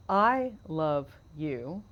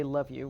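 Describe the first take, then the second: First: "I love you" spoken very slowly, each word held; drawn-out full phrase. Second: Said in the usual way. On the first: Shown as a demonstration. Host asking cohost about the full phrase, "I love you" slow and deliberate. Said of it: "for people who would say love you". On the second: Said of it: "people who would say love you".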